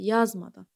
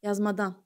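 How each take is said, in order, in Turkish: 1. Vurgu birinci hecededir. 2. Vurgu son hecededir. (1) "Vurğu əvvəldədir" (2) "sona atın"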